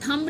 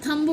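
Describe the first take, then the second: The two takes are said the same way.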